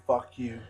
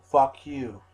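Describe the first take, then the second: First: Loud, defiant fuck you; loud retort. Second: Full shout, much louder, falling at the end; shouted retort. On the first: Answering critics who say he's lost his mind, loud. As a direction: spit it back at them. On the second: Shouting back at critics, full yell. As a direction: yell it right at them. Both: Retold or imitated. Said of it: "I say".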